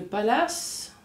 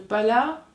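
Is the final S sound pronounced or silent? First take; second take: pronounced; silent. First: The final S sound is pronounced. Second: The final S sound is left silent.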